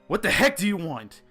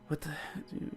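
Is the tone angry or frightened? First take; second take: angry; frightened. First: It is said in an angry, commanding tone. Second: It is said as a frightened whimper.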